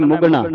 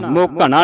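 First: ਮੁਗਣਾ run together, "mug-naa"; joined-up reading. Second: ਮੋਘਣਾ broken apart, "mo-ka-naa"; mistaken reading. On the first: Teacher showing students the reading, ਮੁਗਣਾ joined as "mugnaa". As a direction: say ਮੁਗਣਾ as one word, short u. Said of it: "ਇਕੱਠਾ ਪੜ੍ਹਨਾ ਹੈ". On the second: Teacher warning students of a misreading, ਮੋਘਣਾ as "mo-kanaa". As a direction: split ਮੋਘਣਾ into separate syllables. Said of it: "ਮੋਘਣਾ ਨਹੀਂ ਪੜ੍ਹਨਾ". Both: Shown as a demonstration.

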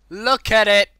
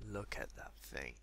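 First: Very loud, high burst; excited shout. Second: Much lower and softer; hushed awe. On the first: Gamer showing off the piggy, excited shout. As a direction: shout it with delight. Shouts about the cute pig. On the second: Gamer gazing at the piggy, hushed awe. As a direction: breathe it out low in wonder. Awed at the pink pig. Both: Real, not acted.

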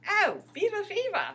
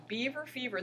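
First: High, loud attempt at Canadian accent; imitated Canadian accent. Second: Said in the usual way. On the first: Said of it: "in his great Canadian accent".

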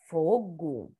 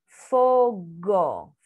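First: Said in the usual way. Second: FOGO drawn out as FO-GO, full final O; syllable-by-syllable reading. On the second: Shown as a demonstration. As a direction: sound out Fogo with both O's held. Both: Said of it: "Vamos ver a palavra".

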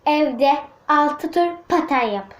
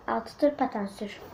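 First: Slow dictation. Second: Softer murmured reread; quiet repeat. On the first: Girl slowly reading the dare she wrote. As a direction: read it out slowly while writing. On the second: Girl quietly rereading the dare she wrote. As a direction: repeat the dare softly to herself. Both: Shown as a demonstration. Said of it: "şöyle yazdım arkadaşlar".

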